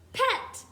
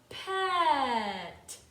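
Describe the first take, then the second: First: The sounds are said quickly together. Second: The sounds are stretched out slowly. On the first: "Now let's say the word" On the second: "Now let's say them slowly together"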